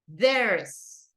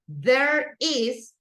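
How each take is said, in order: First: It is said as one contracted syllable. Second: It is said as two separate words. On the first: "the contraction there's" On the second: "There is two words"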